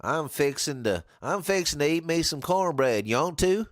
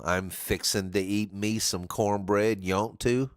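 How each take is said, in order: First: A mock Southern twang on fixing to; southern accent. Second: Said in the usual way. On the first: Shown as a demonstration. Streamer demos Southern slang to a learner in mock Southern accent. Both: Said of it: "the southern slang of things".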